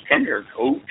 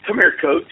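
First: A higher, lightly imitated summons; Mister Albert. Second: Said in the usual way. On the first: Colleague calling the coach into his office, imitated. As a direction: mimic his odd way of talking, pitched up. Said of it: "You know how he talks". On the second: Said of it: "he goes, um".

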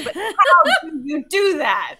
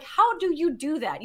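First: Loud, slow, higher insistent demand; exasperated amazement. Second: Curious question, raised pitch; mildly amazed. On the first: Woman pressing fiance for a real answer, loudly incredulous. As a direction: drag out the question loudly, half laughing. Insistent repeat of her question. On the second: Woman asking fiance about his underwater trick, mildly amazed. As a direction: ask with light wonder. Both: Retold or imitated.

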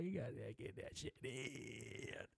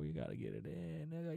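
First: Stretched, hushed mock advice; slow, much softer put-on voice. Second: Softer mock advice in an altered voice. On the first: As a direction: drag it out slowly, almost under the breath. Repeats the advice, drawn out. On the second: Hyped advice on sex.

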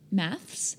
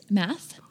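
First: MATHS with a final S, rising; soft questioning MATHS; Australian "maths". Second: MATH without the final S; MATH, American form. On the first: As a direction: say MATHS with the S on the end. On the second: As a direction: say MATH, dropping the S. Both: Shown as a demonstration. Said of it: "chemistry and maths".

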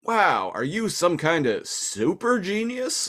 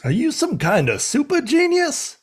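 First: Higher, slow mock Italian plumber accent; wide-eyed Italian plumber marvel. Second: Much higher mock Italian plumber accent; squeaky Mario-style marvel. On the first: Host doing Wheeljack in an Italian plumber accent. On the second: Cohost copying the line in an Italian plumber accent. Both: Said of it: "It's like Italian plumber accent".

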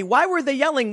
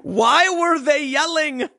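First: Said in the usual way. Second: Asking through a real laugh; laughing, slow and high. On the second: Real, not acted. Laughing after playing the clip.

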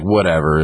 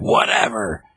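First: Lightly voiced dismissive cop; cop's dismissive retort. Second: Higher, drawn-out mock retort; Harley Quinn. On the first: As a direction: brush it off with an offhand whatever. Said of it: "the cop's like". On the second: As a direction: toss it back in a higher, sassy voice. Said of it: "Harley Quinn's like".

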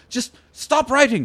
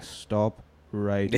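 First: Higher, slow, pleading "Just stop writing"; exasperated plea. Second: Softer, lower, very slow "Stop writing"; deflated repeat. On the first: Character fed up with note-taking. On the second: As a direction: let "Stop writing" sink, worn out. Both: Acted.

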